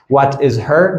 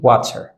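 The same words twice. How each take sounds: First: Said in the usual way. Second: "What's her" shrunk to "whatser"; connected speech. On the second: Shown as a demonstration. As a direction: drop the H of her.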